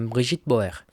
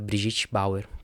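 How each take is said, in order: First: The name is said with a French pronunciation. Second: The name is said with a Portuguese pronunciation. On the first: This is how the person probably says her own name. "essa é muito provavelmente a pronúncia do nome dela, já que ela é muito provavelmente de origem francesa" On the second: This is an easier local way of saying the name. "porque, bom, a gente está no Brasil, né? Não precisa fazer esse esforço sempre"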